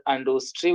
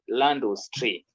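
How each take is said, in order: First: "industry" as French "andustri"; French pronunciation without article. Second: "l'industrie" slowly, as "landustri"; French elision. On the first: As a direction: start "industry" on a bare nasal vowel. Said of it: "If it is". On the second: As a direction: join L to the nasal vowel in "l'industrie", slowly. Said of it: "we say". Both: Shown as a demonstration.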